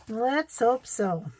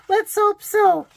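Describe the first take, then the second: First: Said in the usual way. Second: High, loud laughing squeal; "Let's hope so" squeaked high and loud on a laugh; squealed through a laugh. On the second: Real, not acted. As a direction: let it burst out high and giggly. Laughing after spotting babies.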